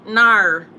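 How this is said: It is said in an attempted Australian accent. "I wish I could do an Australian accent"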